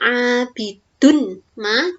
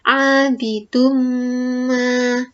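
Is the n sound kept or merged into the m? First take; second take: kept; merged. First: The n sound stays separate before the m. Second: The n merges into a nasal m sound. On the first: The speaker calls it wrong. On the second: The speaker calls it right. "tapi menjadi"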